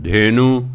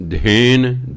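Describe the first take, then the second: First: ਧੇਨੂ with a long final u; ਧੇਨੂ as Hindi speakers say it; Hindi-style ਧੇਨੂ ending in u; Hindi pronunciation. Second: ਧੇਨ said without the final u; clipped ਧੇਨ, no ਔਂਕੜ sound; Punjabi pronunciation. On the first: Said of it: "ਉਚਾਰਨ ਤਾਂ ਸਾ ਹਿੰਦੀ 'ਚ ਹੈ". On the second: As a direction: Gurbani reading ਧੇਨ. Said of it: "Punjabi ਤਰ੍ਹਾਂ ਕਰ ਲਿਆ ਧੇਨ". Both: Shown as a demonstration.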